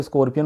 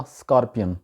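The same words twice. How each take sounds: First: स्कॉर्पियन with an "or" vowel, skor-pi-yan; local pronunciation. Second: स्कॉर्पियन with an open "ar" vowel, skar-pian; native English pronunciation. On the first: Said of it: "इसको वहाँ पे स्कॉर्पियन बोला जाता है". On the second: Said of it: "actual तलफ़ुज़ है गोरों वाला". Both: Shown as a demonstration.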